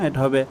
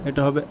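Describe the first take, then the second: Both takes have the same delivery.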